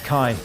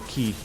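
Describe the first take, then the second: First: The word starts with k, eye vowel. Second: The word starts with a k sound, ee vowel. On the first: This is another reading heard elsewhere. "I've also heard that pronounced as Kai" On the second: This is the Japanese reading. "the Japanese go Ki"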